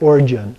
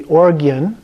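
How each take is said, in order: First: The G is said as a soft J sound. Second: The G is said as a hard G. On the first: "a lot of people also pronounce it origin" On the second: "the usual way would be orgian, ... it has the hard uh, G sound"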